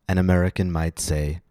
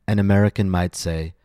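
No difference in how they are said.

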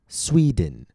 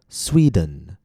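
First: The second syllable has a short 'ih' vowel. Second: The second syllable has a short 'uh' vowel. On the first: "They might use I instead of U" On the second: "instead of Sweden, dun"

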